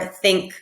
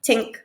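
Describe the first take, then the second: First: The word begins with a TH sound. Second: The word begins with a T sound. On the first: The speaker calls it right. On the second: The speaker calls it wrong.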